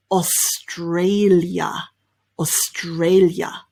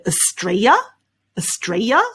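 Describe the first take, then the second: First: AUSTRALIA slowly as os-TRAY-lya; slow AUSTRALIA with clear "os" and "lya"; L included. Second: AUSTRALIA as uh-STRAY-ya, rising; AUSTRALIA in three syllables, "uh-stray-ya"; L left out. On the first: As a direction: keep the L in AUSTRALIA, taking it slowly. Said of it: "Whether you include the L sound". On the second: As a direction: drop the L in AUSTRALIA, end upward. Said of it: "don't include the L sound". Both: Shown as a demonstration.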